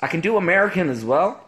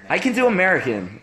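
First: American accent slipping towards Irish; failed American accent. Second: Second go at an American accent. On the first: Showing off to stream viewers, terrible American accent. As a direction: attempt American and land nearer Irish. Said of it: "That was terrible. I sounded more Irish". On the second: Retrying for stream viewers, American accent. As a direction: put on American, proving you can. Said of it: "I can be so American". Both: Shown as a demonstration.

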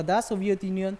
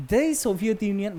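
First: "the" pronounced dah before Soviet. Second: "the" pronounced dee before Soviet. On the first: Teacher giving the allowed article forms, "the" said dah. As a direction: say "the" as an open "dah". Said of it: "দা হিসাবে উচ্চারণ করব". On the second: Teacher giving the allowed article forms, "the" said dee. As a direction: say "the" as a long "dee". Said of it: "উচ্চারণ করব দি হিসাবে". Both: Shown as a demonstration.

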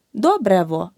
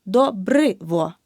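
First: Добрево with an е in the second syllable; wrong version. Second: Добриво with a clear и in the second syllable, slow; correct version, slowly. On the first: Teacher showing students the wrong добрево. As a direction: say добрево, the mistaken е spelling. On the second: Teacher slowly modelling the correct добриво for students. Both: Shown as a demonstration. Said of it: "Не добрево, а добриво".

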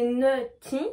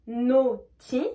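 First: Nutty with an "eu" vowel. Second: Naughty with a full o; O vowel. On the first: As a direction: separate nutty into "neu-ty". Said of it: "on va prononcer E U". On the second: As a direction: separate naughty into "no-ty". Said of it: "on va prononcer O". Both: Shown as a demonstration.

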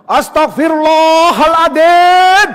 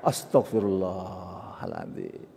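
First: Long, high bellowed prayer; hammed-up furious exclamation; angry istighfar. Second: Slow, low, soft prayer; hushed, drawn-out repentance; calm istighfar. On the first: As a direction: roar the prayer at a child, drawn out. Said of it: "Loh, astagfirullah kok marah?". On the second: Shown as a demonstration. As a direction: murmur the prayer slowly and quietly. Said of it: "Nggak connect itu namanya".

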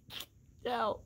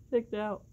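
First: A much higher, laughing squeal on "Kicked out"; "Kicked out" squealed through real laughter; laughing disbelief. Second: Said in the usual way. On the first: Real, not acted.

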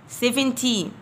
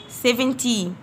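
The two takes are said the same way.

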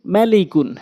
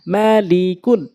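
First: Short vowels, syllables run together; quick reading. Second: Drawn-out syllable by syllable reading; slow demo. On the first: Teacher showing how it must be read, quickly. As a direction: read it briskly as one word. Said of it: "দ্রুতটা উচ্চারণ করতে হবে". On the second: Teacher speaking so learners can follow, slowly. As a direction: stretch each syllable for learners. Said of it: "slow বলছি এই জন্য". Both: Shown as a demonstration.

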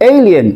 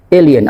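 First: এলিয়েন starting with "ey"; correct pronunciation. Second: এলিয়েন starting on pure "e"; wrong pronunciation. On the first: Teacher says what we will say, এলিয়েন with "ey" glide. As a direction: say "EY-lien" with gliding first vowel. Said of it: "তারপর এটাকে বলবো". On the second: Teacher shows what many of us say, এলিয়েন mispronounced with plain "e". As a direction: say "e-lien", no glide. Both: Shown as a demonstration.

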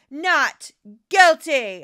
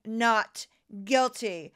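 First: NOT GUILTY, much louder and drawn out; emphatic repeat. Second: Said in the usual way. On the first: Real, not acted. Repeating scholars' verdict to reporters, emphatic declaration. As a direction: punch both words of "Not guilty", slow and loud.

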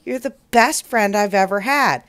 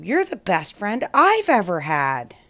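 First: Said in the usual way. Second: "I've" stressed to return the compliment. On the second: Acted. Cloud answers the boy's praise, emphasis on "I've". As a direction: lean on "I've", then fall away.

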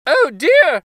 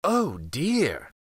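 First: "Oh dear!" cried much higher and louder, in alarm; the gingerbread boy panicking as he is bitten, "Oh dear!"; high, loud squeal of fright on "Oh dear!"; frightened cry. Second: A touch softer, mild pretend worry over "Oh dear!"; sly fox faking alarm on "Oh dear!"; lightly voiced crafty fox sighing "Oh dear!"; fox's mock concern. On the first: Acted. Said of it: "cried the gingerbread boy". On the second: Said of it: "the fox said".

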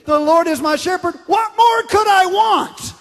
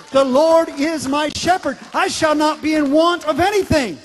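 First: High, loud, slowing on the question; climbing into a triumphant shout on the last words; joyful shouted paraphrase. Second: Loud scripture recitation. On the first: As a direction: shout it out like a delighted exclamation. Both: Shown as a demonstration. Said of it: "I like saying it like this".

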